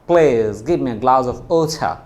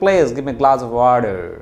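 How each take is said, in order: First: It is said with a British accent. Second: It is said with an American accent. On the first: "একটা হচ্ছে ওছা" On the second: "আর আমেরিকানরা এটা কি বলবে?"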